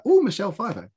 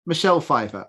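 First: High "Oh", falling onto Michelle Pfeiffer; mild starstruck surprise; pleasantly impressed. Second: Said in the usual way. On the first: Retold or imitated. Viewer reacting to another famous guest star, pleasantly impressed. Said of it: "guest stars where I've been like". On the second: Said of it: "I've been like".

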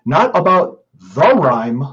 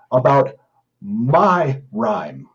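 First: Said in the usual way. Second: My pressed out slowly after a pause; stress on my. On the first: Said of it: "Emphasis the word my". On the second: Shown as a demonstration. Reading a troll's poem to the audience, stressing my. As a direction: lean hard on the word my. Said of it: "Emphasis the word my, M Y".

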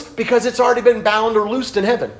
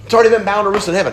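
First: Said in the usual way. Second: Fast repeat. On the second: Shown as a demonstration. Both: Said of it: "repeated faster for emphasis".

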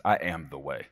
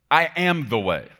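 First: Low, level statement of authority; assured declaration. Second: High, loud and emphatic; bold declaration. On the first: Preacher quoting how Jesus talks, assured and low. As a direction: state it calmly as settled fact. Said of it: "I love it when he talks like this". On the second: Preacher quoting what Jesus told him, bold and loud. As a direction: declare it with full authority. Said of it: "I like when he talks like that". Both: Acted.

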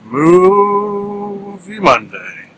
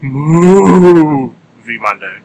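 First: MOVIE held long and high, then MONDAY; drawn out for emphasis. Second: Movie stretched into a loud, long moo; cow's moo. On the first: Shown as a demonstration. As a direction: stretch the first vowel of Movie at a raised pitch. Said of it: "Draw it out like that a little bit to add emphasis". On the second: Pretend. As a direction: moo the first syllable like a cow. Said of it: "Perhaps that's how a cow would say it".

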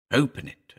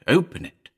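First: Said in the usual way. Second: Higher, louder, rising plea; more urgent. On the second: A narrator's reading. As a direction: push harder, almost begging. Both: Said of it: "he urged".

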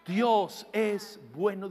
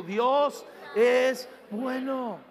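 First: Said in the usual way. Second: Dios es bueno, drawn out slowly with weight on Dios; slow call to repeat. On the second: Shown as a demonstration. Pastor asking the congregation to say it with him, slow call. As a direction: lead the crowd, stretching each word. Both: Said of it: "Díganlo conmigo".

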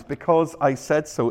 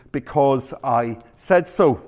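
First: Said in the usual way. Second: Slow, deliberate "Because I said so"; mock parental decree, drawn out; final-word parent. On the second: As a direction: spell it out word by word, closing the argument. Parent's final answer to endless why.

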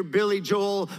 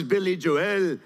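First: "Joel" as one syllable, like "Jole"; American pronunciation. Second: "Joel" in two beats, "Jo-ELL"; imitated Irish pronunciation. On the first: Preacher contrasting two ways of hearing a name, "Joel" as one syllable. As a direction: say "Joel" run together as one beat. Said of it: "you hear [name] versus". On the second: Preacher echoing the comedian's sound guy, "Joel" as "Jo-ELL". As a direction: split "Joel" and lean on the ending, "jo-WELL". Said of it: "versus [name]". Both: Shown as a demonstration.

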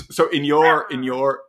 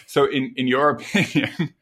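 First: Lightly put-on old man voice, higher. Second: Said in the usual way. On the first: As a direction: creak it out like a little old man. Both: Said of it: "that's my old man voice".

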